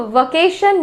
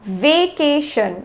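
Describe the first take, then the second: First: वेकेशन as va-KAY-shun; wrong pronunciation. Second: वेकेशन as vay-KAY-shun; slow teaching model of वेकेशन, vay-kay-shun; correct pronunciation. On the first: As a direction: open वेकेशन with a short va. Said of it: "वेकेशन नहीं होता है". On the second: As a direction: open वेकेशन with a long vay, slowly. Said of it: "तो वेकेशन नहीं होता है". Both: Shown as a demonstration.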